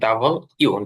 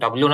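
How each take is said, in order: First: It is said as two full parts, double you. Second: It is said as one clipped word, dublyu. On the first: The speaker calls it right. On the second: The speaker calls it wrong. "ডাব্লিউ না বলেন"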